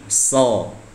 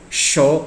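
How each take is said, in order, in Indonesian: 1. Konsonan pertama adalah bunyi s. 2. Konsonan pertama adalah bunyi sh. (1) "so sama dengan sin, bukan sama dengan sha" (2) "show itu kesalahan"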